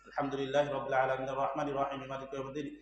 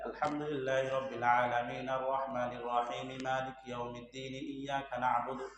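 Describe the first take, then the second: First: It is recited fast, in a hurry. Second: It is recited slowly and calmly.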